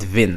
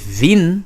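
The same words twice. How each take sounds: First: The vowel is short. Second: The vowel is long. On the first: The speaker calls it right. "I said vin" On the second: The speaker calls it wrong. "I did not say vin"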